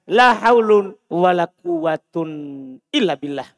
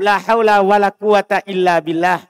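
First: The nouns end with an -un sound. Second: The nouns end with a short -a sound. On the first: The particle la does not govern the nouns. "Dan boleh antum tidak amalkan, berarti kembali ke asal" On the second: The particle la governs the nouns. "Boleh antum baca la haula wala quwata kalau antum amalkan"

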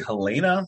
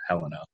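First: The name is said the European way. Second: The name is said the American way. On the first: "That sounds more like more European" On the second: "in America, we would call her Helena"

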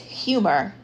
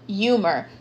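First: The word starts with a clear H sound. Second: The H is dropped; it starts with a Y. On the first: "when the word is humor" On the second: "So they pronounce it with like a Y, like an I"

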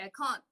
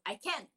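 First: It is said in a British accent. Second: It is said in a Filipino-style accent. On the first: This is the pronunciation adopted after living in the UK. "Tapos ngayon, I always say I can't" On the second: This is how it was said before moving abroad. "Like before, we say I can't"

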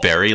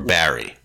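First: The first vowel sounds like in berry. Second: The first vowel sounds like in bat. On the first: "like a raspberry" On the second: "If it's an A, it's ah"

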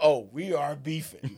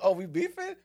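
First: It sounds certain and emphatic. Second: It sounds unsure and questioning. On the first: There clearly is a conflict. "But then sometimes like" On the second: It is unclear whether there is a conflict. "sometimes conflict is like"

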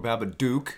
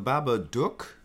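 First: It is said with an American pronunciation. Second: It is said with a non-American pronunciation.

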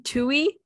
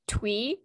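First: The name is said as two syllables, 'too-ee'. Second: The name is said as one syllable, 'twee'. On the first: The speaker calls it right. "when it's actually Tui" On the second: The speaker calls it wrong. "We've been saying... Twee"

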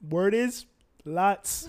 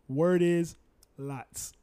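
First: It is said in an imitated, put-on voice. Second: It is read in a plain, ordinary voice.

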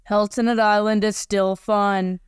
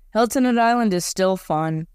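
First: It is said flatly, without energy. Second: It is said with more pep and energy.

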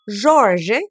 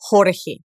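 First: The J is a soft zh sound. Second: The J is a harsh throat sound. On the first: It is the Portuguese pronunciation. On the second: It is the Spanish pronunciation.

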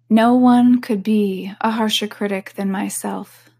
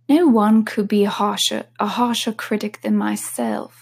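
First: It is spoken in the speaker's ordinary accent. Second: It is spoken in an attempted British accent.

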